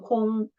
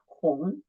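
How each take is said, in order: First: The syllable is said with a high level tone. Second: The syllable is said with a rising tone. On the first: The speaker calls it wrong. "The first tone should be 轰" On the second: The speaker calls it right. "the right answer is the second tone"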